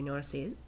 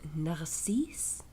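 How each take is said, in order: First: The name is pronounced with an English accent. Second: The name is pronounced with a French accent. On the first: "said in the English way" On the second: "utilize my very small amount of French language learning abilities or pronunciations"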